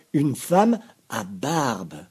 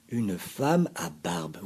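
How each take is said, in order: First: Even slower, louder, femme stretched; repeated for effect. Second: Slow, weighted first telling; bearded lady emphasis. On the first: Narrator insists to listeners, loud slow repeat. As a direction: land femme like a punchline. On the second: Narrator announces the bearded woman, slow stress. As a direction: let femme hang in surprise. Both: A narrator's reading. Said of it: "Oui, vous avez bien entendu".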